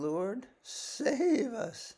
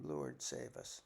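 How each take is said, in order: First: Slow, drawn-out cry for help, pitched high; desperate plea. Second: Breathless whispered cry for help; hushed plea. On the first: Acted. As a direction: beg to be saved, stretching the words. Disciples cry out in storm. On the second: Shown as a demonstration. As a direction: breathe it like a private prayer. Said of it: "you can always scream".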